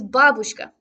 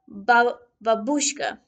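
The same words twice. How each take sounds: First: The stress is on the first syllable. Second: The stress is on the second syllable. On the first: The speaker calls it right. "with the stress on the first syllable" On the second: The speaker calls it wrong. "which is wrong"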